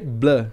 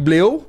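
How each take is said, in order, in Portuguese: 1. É falado com o som de vogal francês. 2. É lido letra por letra, como está escrito. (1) "mas se lê Bleu" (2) "Se escreve Bleu"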